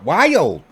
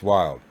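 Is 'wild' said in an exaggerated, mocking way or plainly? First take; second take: exaggerated; plain. First: The word is drawn out in an exaggerated, mocking pronunciation. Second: The word is said in a plain, ordinary pronunciation. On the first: The speaker calls it wrong. "It's not wild" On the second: The speaker calls it right. "It's wild"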